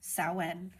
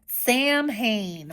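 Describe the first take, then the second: First: It is said differently from its spelling. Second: It is said letter by letter, as spelled. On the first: The speaker calls it right. "but it's pronounced Samhain" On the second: The speaker calls it wrong. "It looks like it says Sam Hain"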